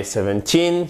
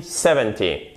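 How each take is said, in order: First: Put-on "seventeen" with a long, stressed TEEN. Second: "seventy" stressed on SE-, short final "-ty". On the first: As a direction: hold the last syllable of seventeen. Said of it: "les nombres se ressemblent". (seventeen accentué sur "teen", i long) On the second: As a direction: hit the first syllable of seventy, drop the end. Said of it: "Regardez, seventeen". (seventy accentué sur la première syllabe) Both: Shown as a demonstration.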